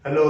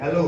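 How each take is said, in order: First: A short, curt hello; bad-mood hello. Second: A fond, lilting hello; affectionate hello. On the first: Teacher showing students how a bad mood changes hello, curt. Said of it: "कई बार हमारा mood खराब होता है". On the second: Teacher showing students how hello sounds with love, affectionate. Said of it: "कई बार हम लोग प्यार से बात करते हैं". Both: Shown as a demonstration.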